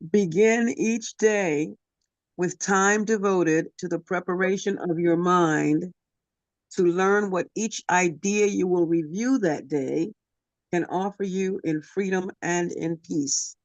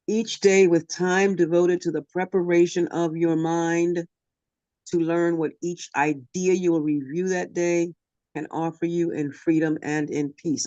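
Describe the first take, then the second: First: It is read slowly. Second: It is read fast.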